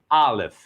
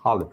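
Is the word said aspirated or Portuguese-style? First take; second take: Portuguese-style; aspirated. First: It is said with plain Portuguese-style sounds. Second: It is said with a breathy aspirated sound. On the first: "vou colocar bem aportuguesado" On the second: "na verdade é uma aspiração"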